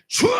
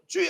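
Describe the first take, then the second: First: It is a loud, deep cry from the belly. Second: It is a thin cry from the throat.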